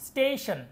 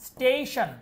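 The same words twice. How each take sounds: The two takes are said the same way.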